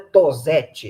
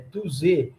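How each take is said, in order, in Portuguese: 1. O nome é dito com pronúncia de estilo português. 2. O nome é dito com pronúncia de estilo francês. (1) "a pronúncia não é Tosetti" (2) "é um nome francês"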